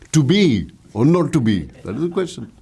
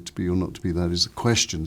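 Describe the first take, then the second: First: The energy falls on the start of the sentence. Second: The energy falls on the end of the sentence.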